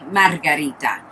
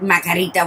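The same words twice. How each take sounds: First: The R sounds are rolled. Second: The R sounds are not rolled. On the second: "you're gonna say Marga, Margarita"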